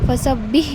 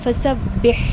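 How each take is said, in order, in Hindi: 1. अंतिम ह हल्का है या नहीं है। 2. अंतिम ह गले से साफ़ निकलता है। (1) "नहीं होगा" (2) "उसको हम हलक से निकालते हैं"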